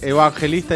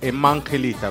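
First: The word is said with a b-like sound. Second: The word is said with an m sound. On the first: The speaker calls it right. "En vez de decir evangelista" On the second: The speaker calls it wrong. "dice emangelista"

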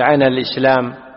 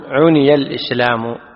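First: The verb's first vowel is a, not u. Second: The verb's first vowel is u, then i. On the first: The speaker calls it wrong. "لا تقول" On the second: The speaker calls it right. "وإنما تقول"

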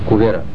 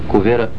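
No difference in how they are said.

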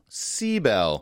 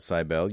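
First: The stress is on the first syllable. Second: The stress is not on the first syllable. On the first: The speaker calls it right. "The emphasis on the first syllable" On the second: The speaker calls it wrong. "we had the emphasis wrong"

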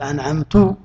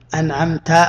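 First: The word ends with a 'tu' sound. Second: The word ends with a 'ta' sound. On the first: I have bestowed favor. The speaker calls it wrong. "قال أنعمت" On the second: You (God) have bestowed favor. The speaker calls it right. "يا عم افتح فمك قول أنعمت"

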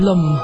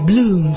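First: The vowel is short. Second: The vowel is long. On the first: The speaker calls it wrong. "不是Bloom" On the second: The speaker calls it right. "是Bloom"

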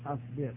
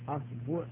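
First: The vowel after the b is i. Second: The vowel after the b is u. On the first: "والكسر" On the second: "والضم"

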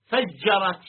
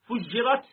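First: The first vowel is an open a sound. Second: The first vowel is a rounded u sound. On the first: The subject itself caused the bursting. "مبنيا للفاعل نقول فجرت" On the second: Something else caused the bursting. "ضم أوله"

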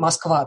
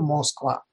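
First: The first vowel sounds like a reduced a. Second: The first vowel sounds like a full o. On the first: "москвичи очень много акают, мы как говорим Москва" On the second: "мы же не говорим Москва"

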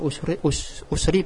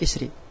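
First: The word begins with a u vowel. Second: The word begins with an i vowel. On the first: It follows the original damma vowel of the verb. "Doma kan? Usru. Kita baca usri" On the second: It follows the kasra vowel present now. "meskipun boleh juga dibaca isri"

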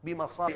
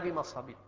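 First: The word ends with an a vowel. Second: The word ends with an i vowel. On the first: The speaker calls it right. "لأنه على صيغة منتهى الجموع فيمنع من الصرف" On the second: The speaker calls it wrong. "لم يقل بمصابيح ولا بمصابيح"

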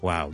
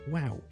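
First: It is said flat and cold. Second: It is said high and excited. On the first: The speaker is not really impressed. "如果我哋语气平淡少少hea 少少好冷淡呢" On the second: The speaker is genuinely impressed. "如果我真心咧，我就好高音发啲wow"

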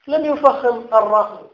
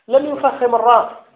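No difference in how they are said.

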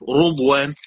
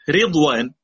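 First: The r is heavy, with a u vowel. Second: The r is light, with an i vowel. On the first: "رو بالضم مفخمه" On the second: "مرققه"

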